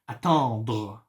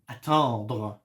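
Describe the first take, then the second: Both takes have the same delivery.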